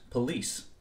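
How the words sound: It is said in a General American pronunciation. "In what is loosely called American English, this word would be pronounced"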